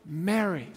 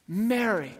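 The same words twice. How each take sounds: First: Tender calling of a name. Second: Said in the usual way. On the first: Acted. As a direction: say her name gently, like a whisper of love. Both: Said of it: "hears that word, Mary".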